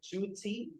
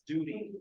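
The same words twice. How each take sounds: First: The middle T is a full, clear t. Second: The middle T is a soft, quick flap. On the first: The speaker calls it wrong. "I heard someone said duty" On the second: The speaker calls it right. "the better way to pronounce this is duty"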